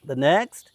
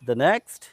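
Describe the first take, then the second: No difference in how they are said.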